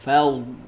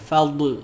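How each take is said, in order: First: The final consonant is held smoothly without a bounce. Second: The final consonant is released with an echoing bounce. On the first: The speaker calls it right. "lidah tu daripada tepi ni dia pergi ke depan... macam tu" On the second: The speaker calls it wrong. "Dia jangan fadl, bukan fadl... huruf dot ni dia tak ada qalqalah"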